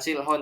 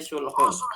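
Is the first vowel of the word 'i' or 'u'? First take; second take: i; u. First: The first vowel is an 'i' sound. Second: The first vowel is a 'u' sound. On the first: The speaker calls it wrong. "Bukan silhun" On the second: The speaker calls it right. "tapi sulhun"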